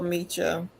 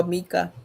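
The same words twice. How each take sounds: First: "Micha" with a "ch" sound; alternative pronunciation. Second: "Mika" with a hard k; alternative pronunciation. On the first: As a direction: say "Micha" as MEE-chuh. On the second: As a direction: say "Mika" as MEE-kuh. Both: Real, not acted. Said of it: "Or Mika".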